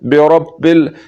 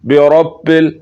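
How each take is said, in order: The two takes are said the same way.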